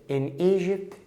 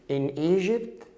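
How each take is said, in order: No difference in how they are said.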